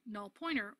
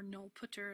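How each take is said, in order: First: The second word is said as 'pointer'. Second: The second word is said as 'putter'.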